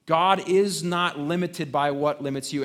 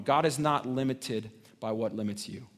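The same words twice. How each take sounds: First: The line said louder and stronger; preacher's emphatic restatement; emphatic repeat. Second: Said in the usual way. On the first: Shown as a demonstration. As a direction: drive the words "is not limited" home.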